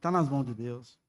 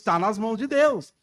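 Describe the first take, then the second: First: It is said in a discouraged, downcast tone. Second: It is said in a joyful, confident tone. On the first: The situation seems hopeless. The speaker calls it wrong. "Olha o desânimo nosso" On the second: The situation is in good hands. The speaker calls it right. "Não, assim, assim, graças a Deus"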